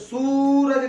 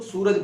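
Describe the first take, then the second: First: The u vowel is held long. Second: The u vowel is kept short. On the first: The speaker calls it wrong. "उच्चारण के अंदर सूरज नहीं बोलते हैं" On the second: The speaker calls it right. "सूरज बोलते हैं ... हम उसको छोटी ऊ की तरह ही ट्रीट करते हैं"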